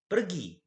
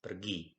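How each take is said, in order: First: A teacher's demo of "Pergi" as an imperative, pitched up high; commanding exclamation. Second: Said in the usual way. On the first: Shown as a demonstration. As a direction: shout "Pergi" as a sharp command to leave. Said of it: "Nah, ada intonasi akhirnya". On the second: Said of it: "Beda ya, bacanya aja beda".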